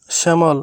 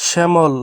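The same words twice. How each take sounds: The two takes are said the same way.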